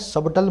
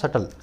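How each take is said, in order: First: The b sound is pronounced in the middle. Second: The b sound is left out entirely. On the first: The speaker calls it wrong. "सबटल मत बोलना" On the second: The speaker calls it right. "ये होता है सटल, बी silent होता है"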